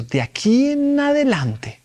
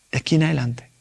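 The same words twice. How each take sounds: First: "De aquí en adelante" said high and slow, drawn out; solemn voice of God. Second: Said in the usual way. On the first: Retold or imitated. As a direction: lift "De aquí en adelante" up high and stretch it like a divine decree. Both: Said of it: "Ok, tienes que hacer un compromiso".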